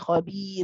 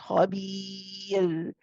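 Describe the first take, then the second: First: The letter sound is rushed and bounced off quickly. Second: The letter sound is held for a moderate moment. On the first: The speaker calls it wrong. "you don't rush it or you don't bounce it. You don't say" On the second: The speaker calls it right. "you hold it there"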